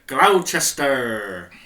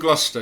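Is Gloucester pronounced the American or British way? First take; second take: American; British. First: It is said the American way, letters spelled out. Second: It is said the British way, two syllables.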